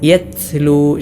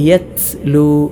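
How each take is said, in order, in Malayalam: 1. ത ശക്തമായ ഒരു ശ്വാസക്കാറ്റോടെയാണ് പുറത്തുവരുന്നത്. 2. ത ശക്തമായ ഒരു ശ്വാസക്കാറ്റോടെയാണ് പുറത്തുവരുന്നത്.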